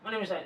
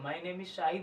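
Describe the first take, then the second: First: It is said quickly and hurriedly. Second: It is said slowly and calmly.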